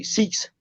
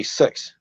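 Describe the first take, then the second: First: "six" with a long ee vowel, like "seeks"; Australian six. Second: "six" with a short, centralised vowel, near "sucks"; New Zealand six. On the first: Comedian showing the host Australian vowels, "six" as "seeks". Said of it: "They will say six". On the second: Comedian showing the host Kiwi vowels, "six" with a centralised i. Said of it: "we'll say six". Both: Shown as a demonstration.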